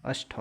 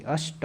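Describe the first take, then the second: First: अष्ट ending in breathy "ṭha"; wrong aspirated t. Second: अष्ट ending in plain "ṭa"; unaspirated t. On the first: Teacher rejecting the wrong letter, aspirated final t. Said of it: "अष्ट नहीं होता". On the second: Teacher correcting the word, unaspirated final t. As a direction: end अष्ट on a ṭ without breath. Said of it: "अष्ट होता है". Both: Shown as a demonstration.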